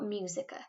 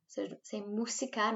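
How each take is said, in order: First: Música said like English music, with a yu sound; the English-sounding mistake, mjusika; anglicised wrong way. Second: Música with stress on the first syllable, MU-si-ca, plain Spanish u; MU-si-ca, not English music; correct Spanish música. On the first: Teacher shows pupils the wrong English-style música. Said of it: "not música". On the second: Teacher corrects pupils' English-sounding música. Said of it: "So say música, not música". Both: Shown as a demonstration.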